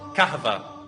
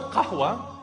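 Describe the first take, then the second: First: The middle consonant is a v sound. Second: The middle consonant is a w sound. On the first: This is how Turkish speakers adapted the word. "So they started to call it kahva" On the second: This is the original Arabic pronunciation. "So the word qahwa, they couldn't say qahwa"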